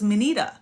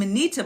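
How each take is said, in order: First: The t is soft, close to a d. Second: The t is a crisp, clear t. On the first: The speaker calls it right. "It's a silent T. It's the it's more of the D T" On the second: The speaker calls it wrong. "I was saying Manita"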